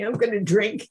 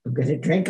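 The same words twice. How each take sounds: First: Panicked. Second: Said in the usual way. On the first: Retold or imitated. Panicked girl repeats herself.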